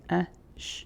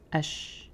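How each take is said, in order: First: The vowel and consonant are separated by a pause. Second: The vowel and consonant are joined without pause. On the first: "and we get A, sh" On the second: "If you take away that pause, we put it together"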